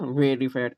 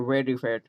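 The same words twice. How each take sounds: First: It is said in an American accent. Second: It is said in an Indian accent.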